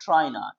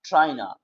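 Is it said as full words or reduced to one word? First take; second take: reduced; reduced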